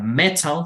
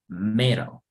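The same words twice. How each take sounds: First: The t is said crisp and clear. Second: The t is flapped like a quick r. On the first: "si fuera inglés británico, es decir, enfatizar la T" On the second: "o como R"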